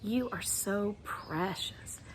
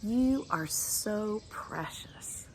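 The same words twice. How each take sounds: First: Tender. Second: Slow breathy whisper of precious; soft slow whisper of endearment. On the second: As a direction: whisper it to them tenderly, slowly. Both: Shown as a demonstration. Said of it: "So let's do that for you".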